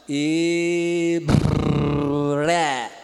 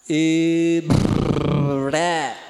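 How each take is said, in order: Both takes have the same delivery.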